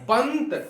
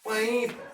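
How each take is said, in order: First: A short n sound is heard before the t. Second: The vowel is nasalized with no clear n sound. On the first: The speaker calls it right. "लेकिन हमको कहना है पंत ... इसलिए आधा न होगा" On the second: The speaker calls it wrong. "अगर उस समय में हम अगर कहते पैंत ... यहाँ न का उच्चारण हो रहा है क्या? ... गलत"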